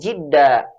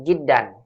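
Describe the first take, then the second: First: The word ends on a bare vowel. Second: The word ends with an n sound. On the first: The speaker calls it wrong. "itu salah juga" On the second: The speaker calls it right. "Tetap dibaca dengan jiddan"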